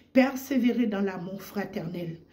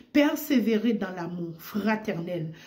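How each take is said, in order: No difference in how they are said.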